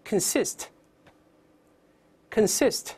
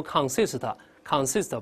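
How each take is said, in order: First: "consist" with reduced "kən", stress on "SIST"; slow, separate model readings of "consist", weak first syllable; correct pronunciation. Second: "consist" with a full, stressed-sounding "con" like "kahn"; wrong pronunciation. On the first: Teacher repeating the word for students, correct pronunciation. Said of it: "再来一遍". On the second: Teacher warning students how not to read it, wrong pronunciation. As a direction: misread "consist" with a strong "kahn" first syllable. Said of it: "不要读consist，consist不这么读啊". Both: Shown as a demonstration.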